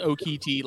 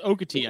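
First: Okiti with a full KEE in the middle; pronounced oh-KEE-tee. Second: Okati with a weak middle 'kuh'; pronounced OH-kuh-tee. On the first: Telling co-hosts either is understood, Okiti as oh-KEE-tee. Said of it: "if someone says Okiti". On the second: Telling co-hosts either is understood, Okati as OH-kuh-tee. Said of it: "If someone says Okati". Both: Shown as a demonstration.

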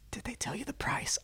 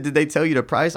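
First: Whispered question. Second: Said in the usual way. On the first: Retold or imitated. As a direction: imitate her hushed, whispered question. Retold bedroom question from woman.

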